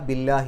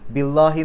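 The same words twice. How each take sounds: First: The L sound is thin and light. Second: The L sound is thick and heavy. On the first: The speaker calls it right. "ലാ എന്നുള്ള ഉച്ചാരണം കൊടുക്കും" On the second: The speaker calls it wrong. "ബില്ലാഹി എന്ന് പറയില്ല"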